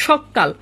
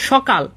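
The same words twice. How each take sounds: First: সকাল said "shok-kal", with a double k; doubled consonant. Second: Said in the usual way. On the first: Shown as a demonstration. Teacher demonstrating consonant doubling, geminated pronunciation. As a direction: hold the k in সকাল before releasing it. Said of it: "ব্যঞ্জনের double উচ্চারণ হচ্ছে". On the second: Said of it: "সকাল থেকে যখন আমি বলবো".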